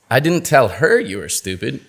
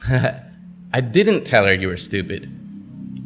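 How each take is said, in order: First: The word 'her' carries the main stress. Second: The word 'didn't' carries the main stress. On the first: It was told to someone else. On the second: The speaker denies having done it.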